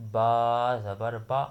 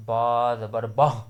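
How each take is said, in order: First: "با زبر با" read slowly, a short clean "a" on each "با" with no catch and no stretch; the correct version, "با" read gently and evenly; smooth slow correct reading. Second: "با زبر با" with a hard catch, the vowel cut off by a hamza-like stop, louder; the wrong version, jolting "با" into a glottal stop; jerked with glottal stop. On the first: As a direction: say it calmly, no glottal stop, no drawn vowel. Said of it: "ایسے جھٹکے کے ساتھ پڑھنا ہے اسے". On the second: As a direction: push the vowel out with a jolt so a hamza sneaks in. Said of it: "اکثر ہم جھٹکا ماریں گے تو".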